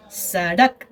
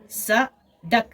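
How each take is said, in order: First: Said in the usual way. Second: सड़क said very slowly as स-ड़क; split into syllables. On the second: Shown as a demonstration. Teacher breaking सड़क into syllables for the class. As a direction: stretch सड़क into two slow syllables. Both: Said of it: "दो आवाज़ों पर मुश्तमिल है".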